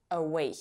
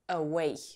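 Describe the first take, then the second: Both takes have the same delivery.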